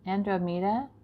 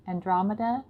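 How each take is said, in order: First: "Andromeda" said an-dro-MEE-da, with a long o and ee; first stumbling take of "Andromeda", stress drifting to MEE; wrong stress. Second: "Andromeda" said an-DROM-e-da, stress on DROM; the corrected take, an-DROM-e-da with short vowels. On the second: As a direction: fix it: "Andromeda" with the weight on DROM. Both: Shown as a demonstration. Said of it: "I put the emphasis on the wrong syllable".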